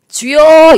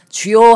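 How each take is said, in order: First: It is a strained cry from the throat. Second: It is a deep cry from the belly. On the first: The speaker calls it wrong. "이러면요 성대 결절 옵니다" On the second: The speaker calls it right. "배에서부터"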